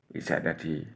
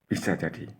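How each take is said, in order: The two takes are said the same way.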